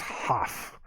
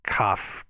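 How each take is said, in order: First: It begins with a raspy kh sound. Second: It begins with a hard k sound. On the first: The letter is written without a dot in it. "K H A F. ... If it does not have a dot in it, it's Haf" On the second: The letter is written with a dot in it. "K A F. ... If it has a dot in it, you pronounce it as Kaph"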